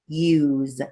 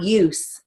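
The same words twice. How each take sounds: First: The word ends with a Z sound. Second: The word ends with an S sound. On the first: The speaker calls it right. "Use is going to be long U, Z" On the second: The speaker calls it wrong. "It's not use a regular bread"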